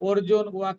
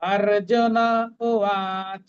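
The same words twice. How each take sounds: First: The n of Arjun ends bare, without vowel. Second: The n of Arjun carries a full vowel. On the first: The speaker calls it wrong. "অর্জুন উবাচ নয়" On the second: The speaker calls it right. "অর্জুন নটা পূর্ণ"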